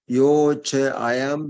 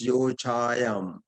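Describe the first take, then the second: First: The words are said separately, not run together. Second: The words are run together into one sound.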